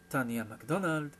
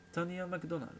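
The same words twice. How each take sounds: First: Mildly exclaimed name, falling at the end; cried out. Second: Said in the usual way. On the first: A narrator's reading. Brother reacting to the model's name, mildly crying out. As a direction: echo the name a little more forcefully. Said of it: "s'écria Zach".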